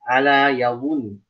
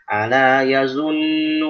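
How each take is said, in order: First: The middle consonant is a heavy emphatic sound. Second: The middle consonant is a plain z sound. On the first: The speaker calls it right. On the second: The speaker calls it wrong.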